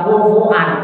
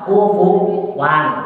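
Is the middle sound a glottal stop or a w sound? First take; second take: glottal stop; w sound. First: A glottal stop joins the two vowels. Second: A w sound joins the two vowels. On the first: This is the form that was first revealed. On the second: This is how the Quraysh tribe said it. "pakai wawan"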